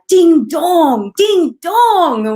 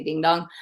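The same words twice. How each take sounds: First: High, loud British "Ding dong, ding dong" with falling tune; British accent. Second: Said in the usual way. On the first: Retold or imitated. Host quoting the judge's catchphrase, loud British accent. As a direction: shout it like a thrilled British makeup judge. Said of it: "she has this British accent". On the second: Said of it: "we would say ding dong".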